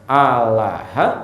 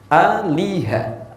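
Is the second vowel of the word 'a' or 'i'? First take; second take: a; i. First: The second vowel is an open 'a' sound. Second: The second vowel is a front 'i' sound. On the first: "bisa dibaca alaha" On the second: "harakat kasrah"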